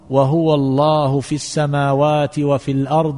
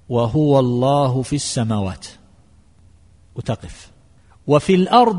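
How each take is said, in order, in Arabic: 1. الجملة تستمر دون وقف. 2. يوجد وقف بعد 'في السماوات'. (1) "ومن وصل" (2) "من أهل العلم من يقول الوقف هكذا"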